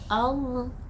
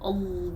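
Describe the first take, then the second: First: The word sounds open and not nasal. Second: The word sounds nasal and covered. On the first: The speaker calls it right. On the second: The speaker calls it wrong.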